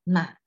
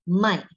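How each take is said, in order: First: The pitch dips low and then rises. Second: The pitch falls sharply from high to low. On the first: It means to buy. "The third tone one is 买, is buying" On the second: It means to sell. "M A I with the fourth tone is jual, sell"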